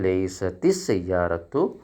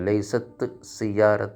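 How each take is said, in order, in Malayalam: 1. ആദ്യ വാക്ക് 'i' സ്വരത്തിലാണ് അവസാനിക്കുന്നത്. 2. ആദ്യ വാക്ക് വ്യഞ്ജനത്തിലാണ് അവസാനിക്കുന്നത്, സ്വരമില്ല. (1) "കസറാക്കും" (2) "സുക്കൂന് രണ്ടെണ്ണം ഒപ്പരം വന്നാൽ നമുക്ക് ഉച്ചരിക്കാൻ ബുദ്ധിമുട്ടായതുകൊണ്ട്"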